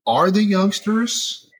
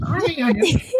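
First: Said in the usual way. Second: Much higher, put-on old-timer voice; mock old-timer. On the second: Shown as a demonstration. Host mocking own age asking about youngsters, mock old-timer. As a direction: ham up a fussy old person. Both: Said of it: "I feel so old saying that".

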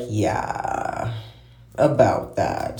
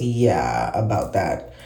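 First: Hesitant, trailing off; slow, uneasy dodge; awkward. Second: Said in the usual way. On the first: Retold or imitated. Awkward reply about a failed date.

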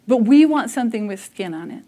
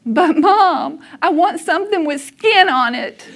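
First: Said in the usual way. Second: Put-on higher, louder childlike plea, almost laughing; little boy pleading. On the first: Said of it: "And what that means for me". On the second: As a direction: play the kid whining to mom.

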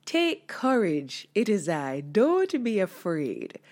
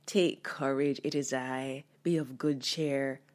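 First: Firm reassurance. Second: Gentle. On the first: Jesus calling to the frightened disciples, slow and firm. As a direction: say it slowly with firm command. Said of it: "I wonder how he really said it". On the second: Jesus gently reassuring the frightened disciples on the water. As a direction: lower and softer, gentle comfort. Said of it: "Did he gently say". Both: Shown as a demonstration.

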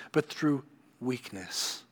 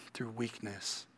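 First: Slow, deliberate stress on "through weakness"; slow emphasis. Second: Much softer echo of "Through weakness". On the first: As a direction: lean on "through weakness" slowly. Preacher stressing key phrase. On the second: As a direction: let "Through weakness" drop to a near hush. Preacher echoes phrase softly. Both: Acted.

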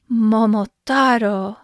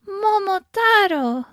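First: Put-on drawn-out, louder call as the old man; slow, proud storybook call at natural pitch; old man's cry. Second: Put-on high, drawn-out call as the old woman; slow, high-pitched storybook exclamation; old woman's cry. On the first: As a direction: cry the name out slowly and loudly. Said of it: "cried the old man". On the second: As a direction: cry the name out slowly, pitched way up. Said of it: "cried the old woman". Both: A narrator's reading.

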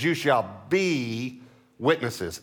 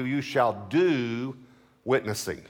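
First: "be" drawn out long, then "witnesses" falls; stress on be. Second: "do" drawn out and left rising before "witnessing"; stress on do. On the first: Preacher correcting to what scripture says, stress on "be". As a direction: hold "be" as the true word, slowly. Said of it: "He says". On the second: Preacher showing what scripture doesn't say, stress on "do". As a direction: stretch "do" as the wrong word, pause, drop "witnessing". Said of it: "Notice he doesn't say". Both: Shown as a demonstration.

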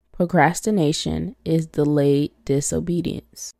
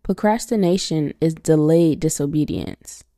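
No difference in how they are said.

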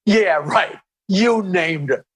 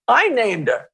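First: Dry, level doubting echo with weight on "You"; skeptical retort. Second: "I" pitched up high, then falling; stress on I. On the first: Robin doubting the comic's claim, dryly skeptical. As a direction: imitate a co-host who doesn't buy it. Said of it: "And Robin was like". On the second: Comic telling Howard who named her, stress on "I". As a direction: lean hard on "I" to claim it. Claims credit in retold exchange. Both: Retold or imitated.

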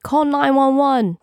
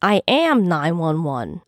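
First: High, drawn-out call for help; shouted call. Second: Slow retort with weight on "am"; shouted back, understated. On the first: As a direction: call it out across a crowd. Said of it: "someone shouted". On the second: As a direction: stress "am" in a firm, mock-shouted reply. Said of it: "Keegan shouted back". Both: A narrator's reading.

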